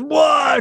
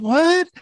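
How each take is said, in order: First: High, loud startled "What?"; mock startled what. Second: High, dazed "What?" after throwing up; a second high, lost "What?"; mock startled what. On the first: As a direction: snap round with a sharp "What?". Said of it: "turns around and goes". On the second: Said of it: "And then she goes".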